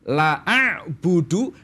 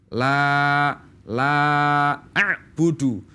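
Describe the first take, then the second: First: The vowel of the first word is cut short. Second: The vowel of the first word is held long. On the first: I indeed worship what you worship. The speaker calls it wrong. "Ketika dibaca pendek satu ketukan" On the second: I do not worship what you worship. The speaker calls it right. "Harus dibaca panjang minimal dua ketukan"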